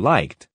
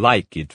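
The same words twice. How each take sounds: First: The ending adds no extra syllable. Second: The ending is an extra 'id' syllable. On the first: The speaker calls it right. "for liked" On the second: The speaker calls it wrong. "You cannot say"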